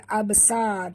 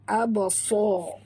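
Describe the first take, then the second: First: The s sound is light and thin. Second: The s sound is heavy and thick. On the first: The speaker calls it wrong. "jangan baca" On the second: The speaker calls it right. "huruf sad tebal ya, tebal"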